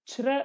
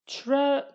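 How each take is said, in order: First: The word is said with a Kurdish accent. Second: The word is said with an American accent. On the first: The speaker calls it right. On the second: The speaker calls it wrong.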